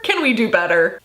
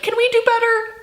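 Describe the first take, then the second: First: Said in the usual way. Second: High plea. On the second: Real, not acted.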